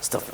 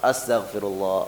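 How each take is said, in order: First: It is said quickly and hurriedly. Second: It is said slowly and thoughtfully. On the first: The phrase is rattled off just to reach a count. The speaker calls it wrong. "dia buru-buru tuh ya. Kayak balapan sama sebelahnya" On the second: The phrase is reflected on sincerely. The speaker calls it right. "Direnungi tapi ya"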